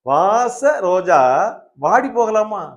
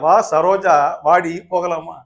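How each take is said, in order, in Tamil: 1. முதல் பிரிவு 'vaasa'-க்குப் பின்னால வருது. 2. முதல் பிரிவு 'vaa'-க்குப் பின்னால வருது.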